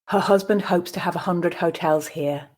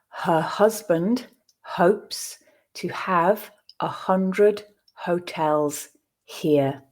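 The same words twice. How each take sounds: First: The sentence is read at natural speed. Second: The sentence is read slowly and deliberately. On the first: "I will then read it at a more natural pace" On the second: "I will read the sentence first slowly for you to grasp the words"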